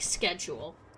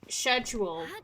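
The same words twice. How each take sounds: First: The word is said with a Canadian pronunciation. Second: The word is said with a British pronunciation. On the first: "the Canadian comes out and I'm like schedule" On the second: "I'm a fake Brit because like like for the most part I say schedule the normal way"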